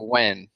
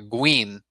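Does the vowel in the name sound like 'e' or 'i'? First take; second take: e; i. First: The vowel sounds like a short 'e'. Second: The vowel sounds like a short 'i'. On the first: "Instead of Gwen" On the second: "It's almost as if it were written as like an I"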